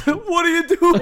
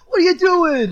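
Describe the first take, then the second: First: High mock Boston accent. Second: High, loud mock Boston accent. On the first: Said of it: "Boston accent". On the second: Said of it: "I can't do a Boston accent".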